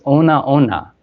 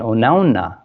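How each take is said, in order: First: The word is split into two separate parts. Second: The word is run together as one unit. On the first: Being completely drunk. The speaker calls it wrong. "you think it'd be pronounced Ona Ona" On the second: Something pleasant and satisfying. The speaker calls it right. "that can have a different meaning than Onauna"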